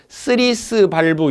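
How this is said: It is said with a Japanese-style pronunciation. The speaker calls it wrong. "일본식 영어 발음으로"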